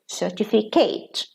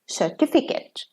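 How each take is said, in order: First: The stress falls on the final syllable. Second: The stress falls before the final syllable. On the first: It is used as a verb. "when they are verbs, stress falls on the last syllable" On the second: It is used as a noun. "It's not the first one"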